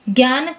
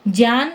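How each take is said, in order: First: The word begins with a 'gy' sound. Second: The word begins with a 'jy' sound. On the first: This is the Hindi pronunciation. "यदि मैंने इसको हिंदी में बोला" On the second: This is the Sanskrit pronunciation. "मैं संस्कृत में बोल रही हूँ"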